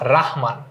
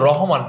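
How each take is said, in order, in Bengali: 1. প্রথম স্বরধ্বনিটি দীর্ঘ 'a'-এর মতো শোনায়। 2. প্রথম স্বরধ্বনিটি 'o'-এর মতো শোনায়। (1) "এটা হচ্ছে শামসুর রাহমান" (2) "এটা কিন্তু রহমান না"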